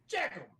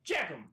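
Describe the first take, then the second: First: High, sharp angry call of a name; pissed off yell. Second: Said in the usual way. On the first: Retold or imitated. Team leader calling out the soldier who mangled his name, angry yell. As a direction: bark the name like an irate sergeant. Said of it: "but he was so pissed". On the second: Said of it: "He called me Jackum".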